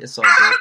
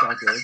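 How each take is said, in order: First: High loud It's all good; mock loud shrug-off. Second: Unvoiced It's all good; breathy aside. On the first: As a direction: squeal it out brushing off the shot. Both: Real, not acted. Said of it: "a little shot at me".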